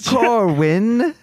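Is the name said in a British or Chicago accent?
British. It is said in a British accent. "like some crumpet with tea"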